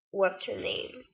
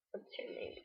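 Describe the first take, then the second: First: Said in the usual way. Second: Hushed, barely voiced mock question; much softer, almost voiceless retelling; imitated hard-to-understand question. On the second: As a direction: mumble it very softly, imitating him. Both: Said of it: "I can't understand his accent".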